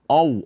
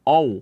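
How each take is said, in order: First: The vowel starts with an o sound. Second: The same.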